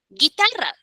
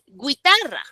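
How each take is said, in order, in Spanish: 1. No se oye ninguna vocal entre la g y la i. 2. Se oye una vocal 'u' entre la g y la i. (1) "solo suena la I" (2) "Tú no dices guitarra"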